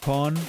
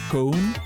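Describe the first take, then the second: First: The first syllable has a short 'o' vowel. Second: The first syllable has a long 'oh' vowel. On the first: The speaker calls it right. "more like C O N" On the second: The speaker calls it wrong. "the co- like I would pronounce that cone"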